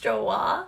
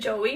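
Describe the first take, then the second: First: It is one syllable ending in an 'ah' sound. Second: It has two syllables ending in an 'ee' sound. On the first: The speaker calls it right. "I guess it's pronounced Joa" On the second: The speaker calls it wrong. "I used to pronounce it Joey"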